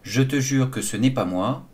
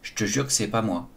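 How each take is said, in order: First: Every syllable is fully pronounced, including ne. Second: Some e sounds and the ne are dropped. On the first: The sentence is in standard careful French. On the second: The sentence is in casual spoken French.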